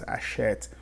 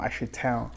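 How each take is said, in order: First: The final -ent ending is left silent. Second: The final -ent ending is sounded aloud. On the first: The speaker calls it right. "we don't pronounce the E N T" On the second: The speaker calls it wrong. "It's not achetin"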